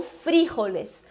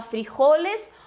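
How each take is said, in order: First: Frijoles as FRI-jo-les; stress on FRI. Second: Frijoles as fri-JO-les; stress on JO. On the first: Teacher giving the second accepted variant, stress on FRI. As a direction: lean on the first syllable of frijoles. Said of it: "pra ser frijoles é uma proparoxítona". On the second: Teacher giving the first accepted variant, stress on JO. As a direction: lean on the middle syllable of frijoles. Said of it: "fala frijoles ou frijoles". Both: Shown as a demonstration.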